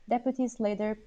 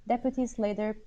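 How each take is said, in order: Both takes have the same delivery.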